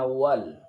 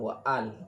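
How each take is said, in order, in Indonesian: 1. Suku katanya menyambung tanpa jeda glotal. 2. Jeda glotal memisahkan 'wa' dari 'al'. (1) "Jadi bacaannya wal" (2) "bukan wa'al"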